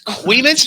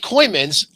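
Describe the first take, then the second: First: The first syllable sounds like 'kwee'. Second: The first syllable sounds like 'koy'. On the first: The speaker calls it right. "It's Queemans Hollow" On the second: The speaker calls it wrong. "If you say Coymans, I'm gonna smack you across the face"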